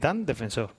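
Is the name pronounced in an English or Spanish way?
Spanish. The name is pronounced with Spanish sounds. The speaker calls it right. "es Dan Defensor. ... el nombre es español"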